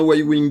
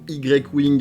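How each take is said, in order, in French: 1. Le nom se prononce à l'anglaise. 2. Le nom se prononce à la française.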